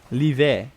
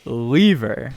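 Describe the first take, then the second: First: LIVE said French-style as "lee-vay"; French reading. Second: LEVER said as English "leaver", drawn out; English reading. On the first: Caster showing how the co-caster's tag sounds, French reading. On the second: Caster showing the tag's second meaning, English reading. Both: Shown as a demonstration.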